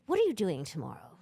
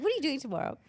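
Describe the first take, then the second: First: Accidental British accent, imitating an older French woman; a failed French accent that comes out British; botched French accent. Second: Put-on high-pitched retelling of an older woman's question; imitated older French woman. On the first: Imitating an older French woman approaching the singer, botched British-sounding accent. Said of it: "Although it was a British accent". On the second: Older French woman approaching the singer, imitated in a higher voice. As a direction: imitate her forward question in a raised voice. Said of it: "I can't do a French accent".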